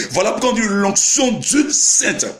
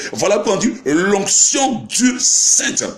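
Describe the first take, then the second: No difference in how they are said.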